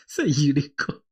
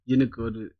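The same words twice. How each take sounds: First: Breathy giggling whisper of the word; laughing whisper. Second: Said in the usual way. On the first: Shown as a demonstration. Streamer repeating a word for chat in a laughing whisper.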